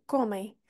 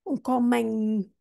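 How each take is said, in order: First: Comem said softly with a nasal ending and the mouth left open; correct pronunciation. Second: Um comem said with a clear final m, mouth closed; wrong pronunciation. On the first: Teacher giving students the right comem, nasal ending. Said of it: "é comem". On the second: Teacher showing students the wrong comem, slowly. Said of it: "não é um sim". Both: Shown as a demonstration.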